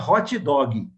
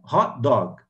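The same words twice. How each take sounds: First: It is said with a Brazilian accent. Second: It is said with an English pronunciation.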